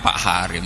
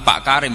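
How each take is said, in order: First: The name begins with a breathy h sound. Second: The name begins with a hard k sound. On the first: This is how Javanese speakers end up saying it. The speaker calls it wrong. "Lah yo muni kaf digenti hak" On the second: This is the name as it is meant to be said. The speaker calls it right. "Nak hak digenti napa? Kaf"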